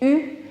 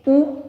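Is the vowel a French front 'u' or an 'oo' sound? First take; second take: French u; oo. First: The vowel is a front rounded 'u' sound. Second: The vowel is a back rounded 'oo' sound. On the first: The speaker calls it right. "c'est prononcé U" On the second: The speaker calls it wrong. "ce n'est pas prononcé OU"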